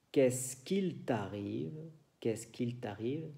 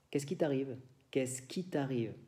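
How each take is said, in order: First: "qu'il" with a clear l; full French. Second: "qu'il" said as "qui", l dropped; spoken French. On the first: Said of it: "En lugar de decir". (francés escrito, con la L) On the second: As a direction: drop the l: "qui t'arrive". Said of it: "Decimos a menudo". (francés hablado, sin la L) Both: Shown as a demonstration.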